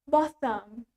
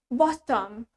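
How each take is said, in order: First: It is said in a British accent. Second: It is said in a British accent.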